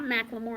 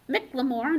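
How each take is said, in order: First: The first part is said as 'mack'. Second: The first part is said as a short 'mick'. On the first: This is a rapper's name. The speaker calls it wrong. "not McLemore. That's that young man who is a rapper" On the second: This is the author's name. The speaker calls it right.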